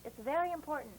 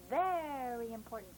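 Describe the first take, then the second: First: Said in the usual way. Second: VERY stretched out long, pitch falling; emphatic stretch. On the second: Real, not acted. Teacher impressing importance on pupils, drawn-out VERY. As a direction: lean slowly on "very", lower in pitch.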